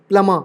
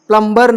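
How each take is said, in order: First: No b sound is heard after the m. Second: A b sound is heard after the m. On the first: The speaker calls it right. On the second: The speaker calls it wrong.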